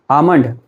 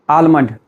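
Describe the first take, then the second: First: The L sound is left out of the word. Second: The L sound is pronounced in the word. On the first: The speaker calls it right. "because L is silent" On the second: The speaker calls it wrong. "you cannot say it like almond"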